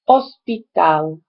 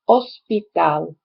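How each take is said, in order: No difference in how they are said.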